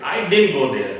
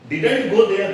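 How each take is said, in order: First: "didn't" squeezed to din before go; contracted didn't. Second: "Didn't" as a full di-dant with the t sounded; wrong didn't. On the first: Teacher modelling the sentence for learners, reduced didn't. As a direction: run "didn't" into "go" with no t. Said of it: "या फिर". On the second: Teacher showing what sounds wrong, over-full didn't. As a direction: give "Didn't" two heavy full syllables. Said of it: "बहुत गलत है". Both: Shown as a demonstration.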